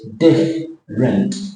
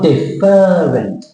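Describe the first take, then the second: First: The word is said with two syllables. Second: The word is said with three syllables. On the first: The speaker calls it right. "I've crossed out the E" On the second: The speaker calls it wrong. "It's not different"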